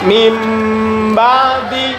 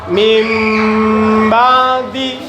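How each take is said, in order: First: The first word ends with an m sound. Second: The first word ends with an m sound.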